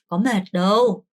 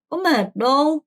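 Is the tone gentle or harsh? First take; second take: gentle; harsh. First: It is said gently and softly. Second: It is said harshly and bluntly.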